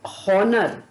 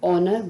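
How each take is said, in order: First: The word begins with an h sound. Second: The word begins with a vowel sound. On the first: The speaker calls it wrong. "हम इसको हॉनर ना बोल करके" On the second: The speaker calls it right. "हम इस शब्द को ऑनर बोलेंगे"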